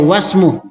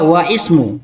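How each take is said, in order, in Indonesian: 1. Kata-katanya disambung, dengan i dihilangkan. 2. Kata-katanya diucapkan terpisah, dengan bunyi i dilafalkan. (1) "Baca saja wasmu" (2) "bisa juga wa ismu, tapi tidak cocok"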